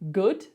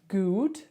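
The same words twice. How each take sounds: First: The vowel is a short, relaxed 'uh'-like sound. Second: The vowel is a long, rounded 'ooh' sound. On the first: The speaker calls it right. "you got it" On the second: The speaker calls it wrong. "not quite"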